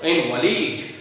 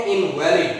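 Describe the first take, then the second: First: इनवैलिड said as IN-va-lid, stress on the first syllable. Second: इनवैलिड said as in-VAL-id, stress on the second syllable. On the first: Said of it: "pronunciation करते हैं इनवैलिड". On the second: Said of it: "जब हम इस शब्द को पढ़ते हैं". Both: Shown as a demonstration.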